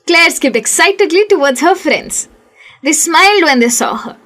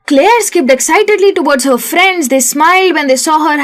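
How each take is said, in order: First: There is a clear pause between the sentences. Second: The sentences run together without any pause.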